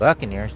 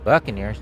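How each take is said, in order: First: The word is pronounced the English way. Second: The word is pronounced the English way.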